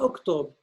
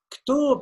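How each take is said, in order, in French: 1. Le mot commence par une voyelle brève. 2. Le mot commence directement par un groupe de consonnes. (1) "et non pas oktob" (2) "Ktob et non pas"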